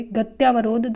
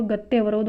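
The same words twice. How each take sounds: First: गत्यावरोध with long "tyaa"; wrong form. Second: गत्यावरोध said as gat-ye-va-rodh; short middle vowel in गत्यावरोध; correct form. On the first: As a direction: say गत्यावरोध as gat-YAA-va-rodh. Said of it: "गत्यावरोध नहीं होता". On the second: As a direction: shorten the "tyaa" of गत्यावरोध to "tye". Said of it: "तो गत्यावरोध होता है". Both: Shown as a demonstration.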